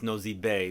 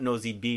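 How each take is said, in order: First: The final word ends with an "ay" vowel. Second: The final word ends with an "ee" vowel. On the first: The speaker calls it right. "It's Nosy Bay because it's the name of a city" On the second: The speaker calls it wrong. "It's not Nosy Bee"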